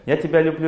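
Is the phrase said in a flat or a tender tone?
flat. It is said flatly, without any feeling. The words are only repeated, without memory behind them. The speaker calls it wrong. "Я повторяю, ... Что-нибудь почувствовали? Нет"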